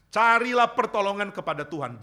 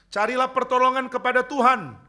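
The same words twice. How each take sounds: First: Said in the usual way. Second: Higher and louder, crying out the appeal; fervent preaching cry. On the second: Shown as a demonstration. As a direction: call out "pertolongan" with full force. (seruan khotbah yang lantang)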